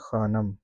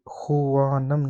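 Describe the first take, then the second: First: No 'w' sound is pronounced after the kh. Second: A 'w' sound is pronounced after the kh. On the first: The speaker calls it right. "इसको साइलेंट करके हम पढ़ते हैं खानम" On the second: The speaker calls it wrong. "ये जो वाव है ये खुवानम नहीं है"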